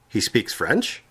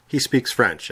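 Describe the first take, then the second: First: "He speaks French?" rising on "French" as a question; question tune. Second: "He speaks French" with a falling statement tune. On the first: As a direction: lift "French" up at the end, asking. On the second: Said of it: "such as". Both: Shown as a demonstration.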